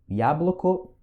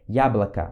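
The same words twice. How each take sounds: First: The unstressed vowels are pronounced as full o. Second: The unstressed vowels are pronounced like a. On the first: The speaker calls it wrong. "a gente não pronuncia assim" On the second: The speaker calls it right. "esse O aqui e esse outro O aqui também tem som de A"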